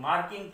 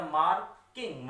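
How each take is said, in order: First: Said in the usual way. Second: मार्किंग broken after मार्क, the first part leaned on; stress on MARK. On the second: Shown as a demonstration. Teacher showing which syllable gets force, stressed मार्क in मार्किंग. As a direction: push मार्क, then let किंग follow separately. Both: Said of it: "थोड़ा जोर से बोला जाए".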